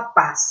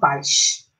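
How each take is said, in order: First: It is said in a Mineiro accent. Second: It is said in a Carioca accent, drawn-out S.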